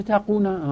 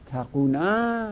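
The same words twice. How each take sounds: First: Said in the usual way. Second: تقونا drawn out syllable by syllable; تقونا said at half speed, each sound clear; slow demo. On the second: Shown as a demonstration. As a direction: spell out تقونا slowly for the class.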